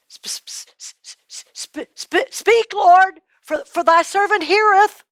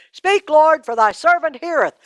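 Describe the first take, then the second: First: Nervous stammer. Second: Said in the usual way. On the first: A narrator's reading. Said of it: "Samuel stammers his answer". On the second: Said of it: "you say".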